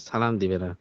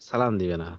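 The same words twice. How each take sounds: Both takes have the same delivery.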